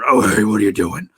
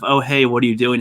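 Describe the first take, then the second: First: It is said in a lowered, deep pitch. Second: It is said in a plain, ordinary pitch. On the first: "or low pitch" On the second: "some people sound kind of bland"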